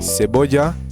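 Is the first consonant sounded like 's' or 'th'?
s. The c is said like an s.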